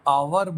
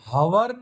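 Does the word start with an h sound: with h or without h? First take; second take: without h; with h. First: The word begins with a vowel sound. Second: The word begins with an h sound. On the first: The speaker calls it right. "हम आवर बोलते हैं" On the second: The speaker calls it wrong. "हम हवर नहीं बोलते हैं"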